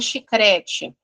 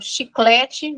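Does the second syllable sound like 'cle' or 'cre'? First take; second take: cre; cle. First: The second syllable is said with an r sound. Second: The second syllable is said with an l sound. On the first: The speaker calls it wrong. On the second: The speaker calls it right.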